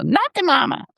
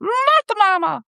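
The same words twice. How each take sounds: First: Put-on high, bratty baby voice; baby dinosaur voice. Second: Put-on very high, slow, stretched-out baby voice. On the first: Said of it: "what the baby says". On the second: Shown as a demonstration. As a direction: try the baby's catchphrase up high. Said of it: "I don't know if I can do the baby voice".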